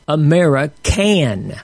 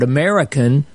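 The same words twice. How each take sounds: First: The last syllable is stressed. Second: The last syllable is unstressed. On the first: A person who can and does not quit. "this different pronunciation changes the meaning of the word" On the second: A citizen living in the country. "take the word American as normally spelled"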